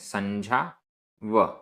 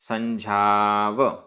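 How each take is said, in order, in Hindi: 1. यह दो अलग-अलग शब्दों की तरह बोला जाता है। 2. यह एक जुड़े हुए शब्द की तरह बोला जाता है।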